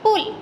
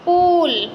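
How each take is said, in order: First: The vowel is short. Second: The vowel is long. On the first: The speaker calls it right. "छोटे ऊ की मात्रा लगेगी" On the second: The speaker calls it wrong. "बड़े ऊ की मात्रा लगेगी"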